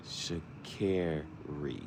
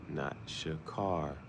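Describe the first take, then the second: First: Sha'Carri with care, shuh-KAIR-ee, drawn out slowly; Sha'Carri stretched long, the care vowel held; right way. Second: Sha'Carri with car, shuh-KAR-ee, slowly; Sha'Carri with the car vowel, drawn out; wrong way. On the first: Imitating the runner's correction video, Sha'Carri said slowly with care. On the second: Imitating the runner's correction video, the wrong Sha'Carri like car. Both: Shown as a demonstration. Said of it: "It's not car, it's care".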